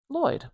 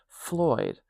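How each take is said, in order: First: The name begins with a plain L sound. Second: The name begins with an F sound. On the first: The name is read from its spelling. "I'm going to pronounce it Lloyd" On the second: The name is heard as starting with F. "People started to understand Floyd as Floyd"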